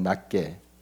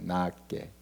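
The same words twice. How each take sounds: First: The first vowel is short and small. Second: The first vowel is drawn out long. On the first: Others are looked down on. "작게 하고" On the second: Others are regarded as more worthy. "좀 길게 발음하셔요"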